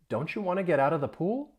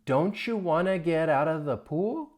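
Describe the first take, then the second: First: It is spoken at normal speed. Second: It is spoken slowly. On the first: "Normal speed" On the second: "let's practice this one time slowly"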